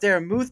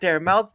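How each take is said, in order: First: The surname has a plain oo-like vowel. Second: The surname sounds like the word mouth. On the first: The speaker calls it right. "it's Darren Muth" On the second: The speaker calls it wrong. "not Darren Mouth"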